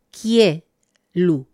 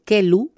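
First: Kielu drawn out with falling tune; kielu, careful and drawn out; model pronunciation. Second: Kelu read as spelled, slow, no ie; kelu, spelled reading not spoken form; spelling pronunciation. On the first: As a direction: say kielu slowly, stress falling at the end. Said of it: "la pronunciación sería kielu shof". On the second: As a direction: read kelu as written, slowly. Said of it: "Se escribe kelu". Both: Shown as a demonstration.

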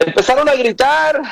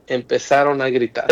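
First: High-pitched emphatic call; raised cry. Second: Said in the usual way. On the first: Shown as a demonstration. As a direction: lift the phrase up high like a cry. Preacher acts out the shouting word.

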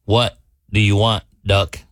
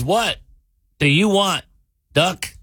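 First: Low, contained anger; mad bartender. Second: Higher-pitched bartender's question; lightly acted bartender, pitched up; lightly voiced bartender. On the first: Acted. Fed-up bartender leans in on the duck, low and mad. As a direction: play a bartender losing patience, pitched down. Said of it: "he's mad". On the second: Bartender asks the returning duck what it wants, lightly acted. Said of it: "Walks down there and goes".

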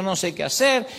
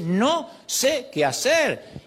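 First: Said in the usual way. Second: Very slow, higher, each word drawn out; slow humble prayer. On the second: Shown as a demonstration. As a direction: lay the words down slowly, helpless. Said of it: "hay que decir". (oración humilde, muy lenta y aguda)

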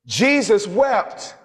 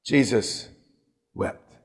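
First: "Jesus" stretched slowly and raised high; emphatic quote. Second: Low, hushed, solemn reading of "Jesus wept"; solemn quote. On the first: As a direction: lean hard on "Jesus" and take your time. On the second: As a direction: let "Jesus" fall and barely breathe "wept". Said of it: "Scripture says". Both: Shown as a demonstration.

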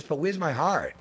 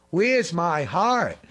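First: Said in the usual way. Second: "Where's my heart?" drawn out slowly, each word weighted; slow emphatic repeat. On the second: Shown as a demonstration. Preacher presses the question on his listeners, slow and weighty. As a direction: lean on "Where's my heart?" and stretch it.

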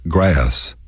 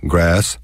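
First: Grass with a lilt, "gray-us"; stretched Texas vowel. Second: Said in the usual way. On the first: Shown as a demonstration. Showing listeners the Texas lilt on grass. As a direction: stretch grass into two syllables. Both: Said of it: "stretch our vowels out and put a lilt".

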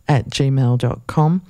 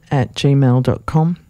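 No difference in how they are said.

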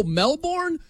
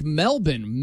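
First: MELBOURNE as a full "Mel-BORN", pitched up; questioning, high Melbourne with a clear "born"; American-style Melbourne. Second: MELBOURNE squashed to "MEL-bin"; Aussie-style Melbourne. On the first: Host checking the city's name in disbelief, high questioning "Mel-born". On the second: Host puzzling over the telecast's name for the city, squashed "MEL-bin". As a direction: say Melbourne as "MEL-bin", second syllable swallowed. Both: Retold or imitated. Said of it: "I'm like, "Melbourne".

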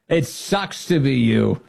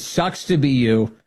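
First: Slower, savoring mock-cheerful repeat; lightly imitated gleeful taunt; imitating cheerful. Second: Slow, breezy mock-cheerful quote; lightly imitated sunny taunt; imitating cheerful. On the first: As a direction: relish the cheery put-down again, slowly. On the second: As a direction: echo her cheery put-down, slowly. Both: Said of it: "she says it so cheerfully".

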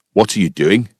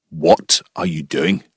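First: Lower-pitched question in a put-on Scottish accent; puzzled Scottish farmer challenging a stranger. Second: Low, slow Scottish challenge, word by word; stern Scottish farmer. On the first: Farmer asks the man praying in his field, Scottish accent. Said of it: "it's clearly a Scottish accent". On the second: Retold or imitated. Farmer confronts the praying intruder, stern slow Scottish accent. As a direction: make the intruder feel unwelcome in a deep Scottish accent. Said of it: "he made it pretty clear".

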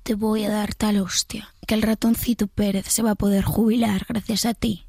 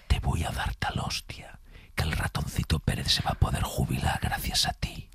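First: Whispered imitation of the threat. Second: Menacing whisper; threatening ASMR whisper. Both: Shown as a demonstration. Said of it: "Ahora la susurrada".

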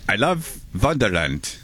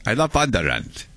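First: A hint of a slow Viking accent on "I love Wonderland"; lightly done Viking accent. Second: Fuller Viking accent on "I love Wonderland", more put-on. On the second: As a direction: lean harder into the Viking accent. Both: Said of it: "Viking accent".

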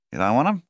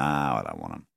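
First: "You don't want 'em?" climbing high to the end; questioning rise. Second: "I don't want 'em" set low and falling; statement fall. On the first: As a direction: lift "'em" sharply as a louder, high question. Agent's surprised question to his client. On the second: Client's refusal answering the agent. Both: A narrator's reading.

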